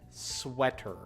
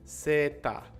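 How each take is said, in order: First: It starts with sw and ends in ter. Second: It starts with plain s and ends in ta. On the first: The speaker calls it right. "you have the W sound" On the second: The speaker calls it wrong. "The sounds are so different"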